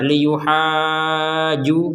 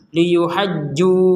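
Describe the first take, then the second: First: The vowel is long but the j is not doubled. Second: The j is doubled but the vowel is short. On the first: "tidak ada tekanannya itu" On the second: "tidak ada panjang kemudian langsung nekan"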